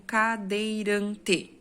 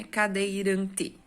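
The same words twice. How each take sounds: First: "cadeirante" very slow, with the weight on "ran"; stressed syllable. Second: "Cadeirante" slow, with the weight on "ran"; stressed syllable. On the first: Teacher shows where the stressed syllable falls, very slowly. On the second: Teacher repeats the word slowly to show the stress. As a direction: stretch "Cadeirante" and lean on "ran". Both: Shown as a demonstration. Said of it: "pronunciamos com mais força".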